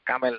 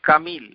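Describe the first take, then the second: First: The second vowel is an 'e' sound. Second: The second vowel is an 'i' sound. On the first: The speaker calls it wrong. "কামেল এই এ মে দিয়ে কোনো উচ্চারণ আরবি শব্দে নাই... উর্দুওয়ালাদের কাছ থেকে আসছে, কামেল না" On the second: The speaker calls it right.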